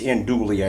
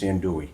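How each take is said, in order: First: The L sounds are pronounced in the word. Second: The L sounds are left out of the word. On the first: The speaker calls it wrong. "I don't think it's andouille" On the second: The speaker calls it right. "I don't think you pronounce the L's. I think it's andouille"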